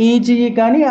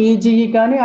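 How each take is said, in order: Both takes have the same delivery.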